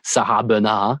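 The name is pronounced the French way.

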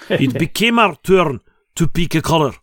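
It is spoken with a put-on Russian accent.

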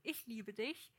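It is said in a serious, earnest way.

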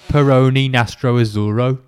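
It is said in a Brummie accent.

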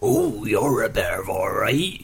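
It is said in an old man's voice.

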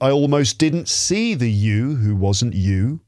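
The words flow together with natural stress. The speaker calls it right. "No, it should be"

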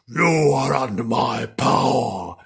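It is said in a big, menacing demon voice. The speaker calls it right. "He said something big and"

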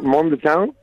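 It rises at the end like a question.

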